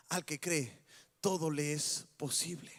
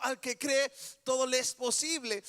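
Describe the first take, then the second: First: Gentle, low Jesus. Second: Emphatic preached line. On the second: Repeated as the loud climax. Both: Acted.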